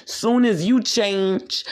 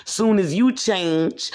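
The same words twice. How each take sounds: The two takes are said the same way.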